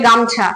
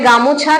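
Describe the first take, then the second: First: No vowel is heard between the m and ch. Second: A vowel is heard between the m and ch. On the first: "কেউ বলে গামছা" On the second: "কেউ বলে গামোছা"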